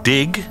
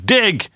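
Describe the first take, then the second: First: It is said flatly, without excitement. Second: It is said excitedly, like an exclamation.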